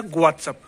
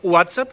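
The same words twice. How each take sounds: First: WhatsApp slowly as "gwaat-sap". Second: WhatsApp slowly as "oo-aat-sap". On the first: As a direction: start WhatsApp on a G. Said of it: "या तो गु या ऊ". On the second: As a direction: open WhatsApp with an OO. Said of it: "इसको बोलते हैं". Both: Shown as a demonstration.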